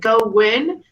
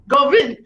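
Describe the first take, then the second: First: It is said in a plain accent. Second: It is said in a Russian accent. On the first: "say go win" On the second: "Now say it in a Russian accent"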